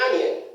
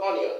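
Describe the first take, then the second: First: Onion as AN-yun; correct pronunciation. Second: Onion as "ON-io"; mispronunciation. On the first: Teacher models the right form, correct pronunciation. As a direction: open "a" to start "onion". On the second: Teacher shows what not to say, mispronunciation. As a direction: round the start of "onion" to o. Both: Shown as a demonstration. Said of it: "not onion".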